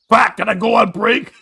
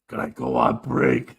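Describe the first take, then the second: First: It is said loudly. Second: It is said quietly.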